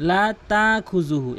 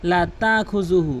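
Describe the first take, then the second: No difference in how they are said.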